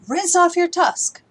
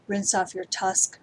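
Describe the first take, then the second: First: Much higher, louder, slow, hitting off; emphatic command. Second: Said in the usual way. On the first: Shown as a demonstration. Teacher contrasts the mild and the exclamatory command. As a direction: shout the order across the room. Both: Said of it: "especially those imperatives like".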